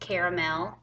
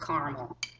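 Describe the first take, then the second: First: The middle vowel is pronounced, giving three syllables. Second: The middle vowel is dropped, giving two syllables. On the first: The speaker calls it right. "There's an A in there for a reason" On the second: The speaker calls it wrong. "not caramel"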